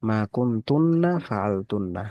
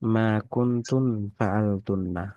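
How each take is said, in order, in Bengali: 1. প্রথম শব্দটি লম্বা -tunna দিয়ে শেষ হয়। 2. প্রথম শব্দটি ছোট -tun দিয়ে শেষ হয়। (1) "এটা একটু ঠিক করতে হবে" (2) "তুমি বলেছো"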